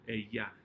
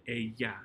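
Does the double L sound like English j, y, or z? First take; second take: y; y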